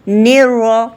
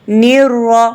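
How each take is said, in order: The two takes are said the same way.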